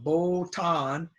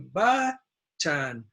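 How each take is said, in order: First: The first vowel sounds like 'o'. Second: The first vowel is a short 'uh'. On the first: The speaker calls it wrong. "some Japanese uh, pronounce this botan, but it's not botan" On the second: The speaker calls it right. "It's the short U"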